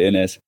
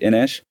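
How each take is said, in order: First: The name ends with a 'z' sound. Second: The name ends with an 'sh' sound. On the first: "Most English people call it Inez" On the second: "the Portuguese pronunciation, isn't it? With the shush on the end"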